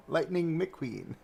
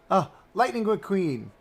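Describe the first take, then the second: First: Slow, drawn-out name with laughter; amused. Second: High, gasping excitement; gasp, then cry out the name; excited recognition. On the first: Streamer repeats the character's name, amused and laughing. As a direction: stretch the name out, giggling. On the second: Streamer spots a beloved car character, gasping excitement. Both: Real, not acted.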